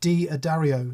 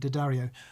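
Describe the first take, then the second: First: The D is said apart from the rest. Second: The D is joined onto the rest. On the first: The speaker calls it wrong. "like so many say. It drives me nuts" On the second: The speaker calls it right. "You've pronounced it correctly"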